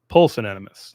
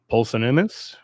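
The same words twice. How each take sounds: First: The word is pronounced in a standard way. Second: The word is pronounced in a garbled way. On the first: The speaker calls it right. "There we go" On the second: The speaker calls it wrong. "I'm mispronouncing that"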